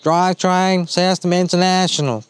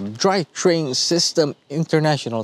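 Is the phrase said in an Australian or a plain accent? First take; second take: Australian; plain. First: It is said in an imitated Australian accent. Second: It is said in the speaker's plain accent.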